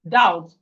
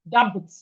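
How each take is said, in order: First: The B sound is silent. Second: The B sound is pronounced. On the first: The speaker calls it right. "No, is doubt" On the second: The speaker calls it wrong. "We are not supposed to dab dab doubt"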